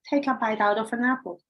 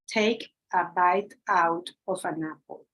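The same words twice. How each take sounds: First: The words are linked together in one flow. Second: Each word is said slowly and separately. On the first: "Now this is different" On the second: "at the very beginning, we say something like"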